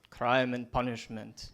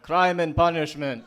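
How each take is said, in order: First: It is said at normal volume. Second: It is said a little louder.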